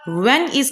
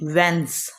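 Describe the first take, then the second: First: Two separate full words are said. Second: The words merge into one short syllable.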